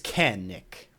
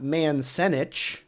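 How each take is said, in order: First: The c is said as a hard k sound. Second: The c is said as a soft s sound. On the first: The speaker calls it right. "the C is going to be a hard k sound" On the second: The speaker calls it wrong. "this is not Mansenich"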